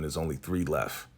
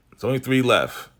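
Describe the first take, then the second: First: Said in the usual way. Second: Louder, pressing the point home; emphatic repeat. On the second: Shown as a demonstration. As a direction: hammer it home for viewers.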